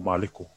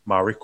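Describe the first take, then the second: First: The middle consonant is an L sound. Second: The middle consonant is an R sound. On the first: "it can be an L" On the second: "the R is that one, actually, because it can be an L"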